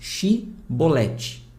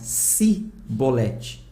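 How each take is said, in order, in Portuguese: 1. A palavra começa com som de sh. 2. A palavra começa com som de s. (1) "com som de X" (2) "Eles pronunciavam Sibolete, por causa do sotaque da região"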